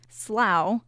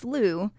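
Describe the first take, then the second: First: It uses the New England and British pronunciation. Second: It uses the pronunciation common in most of the US. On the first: "sometimes pronounced slough in New England, and is the preferred British pronunciation" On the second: "It is pronounced slough in most of the U S"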